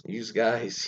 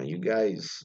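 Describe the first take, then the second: First: "you" with a Z sound added, like "yooz guys"; Philadelphia added S. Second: Said in the usual way. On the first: Shown as a demonstration. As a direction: put an extra S on the end of "you". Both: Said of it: "always add S's where things don't need S's".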